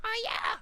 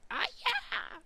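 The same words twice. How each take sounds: First: Very high, loud squeaked "Ah, yeah!"; retry of the signature falsetto cheer; squeaky voice retry. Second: Very high squeaked "Ah, yeah!"; attempted signature falsetto cheer; old squeaky voice. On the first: Retold or imitated. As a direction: push the falsetto harder on a second try. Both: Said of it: "I can't do that voice anymore".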